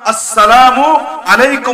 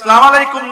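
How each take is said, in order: First: Every sound is pronounced clearly and fully. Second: The opening and linking vowel are dropped. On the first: The speaker calls it right. "সালামের শুরুর হামজা, শেষের মিমকে স্পষ্টভাবে উচ্চারণ করবা" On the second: The speaker calls it wrong. "না"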